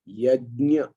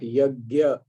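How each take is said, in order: First: The middle cluster sounds like j plus nya. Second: The middle cluster sounds like g plus ya. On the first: The speaker calls it right. "the pronunciation pronunciation is yajna" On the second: The speaker calls it wrong. "It's not yagya. Uh, the gya, which normally is said in the north, uh, is a wrong pronunciation"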